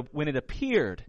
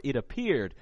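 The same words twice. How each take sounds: First: Said in the usual way. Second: Appeared leaned on, falling at the end; stress on appeared. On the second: Shown as a demonstration. Preacher pressing appeared to the congregation, stressed. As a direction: weigh the word appeared. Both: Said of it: "I want to stress the word".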